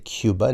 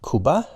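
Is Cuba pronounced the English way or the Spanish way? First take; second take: English; Spanish. First: The word is said with an English pronunciation. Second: The word is said with a Spanish pronunciation. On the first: The speaker calls it right. "we say Cuba" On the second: The speaker calls it wrong. "not Cuba, as they would say in Spanish"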